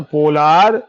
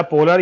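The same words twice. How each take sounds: First: पोलार said with a long drawn "laar" at the end; long-a variant. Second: पोलर said with a short, quick "lar" at the end; short-a variant. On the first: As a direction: stretch the second vowel in पोलार, po-LAAR. (पोलार को लंबे "आ" के साथ बोलें) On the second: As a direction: keep the second vowel in पोलर short, PO-lar. (पोलर को छोटे "अ" के साथ बोलें) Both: Shown as a demonstration. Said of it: "पोलर बोलो या पोलार बोलो".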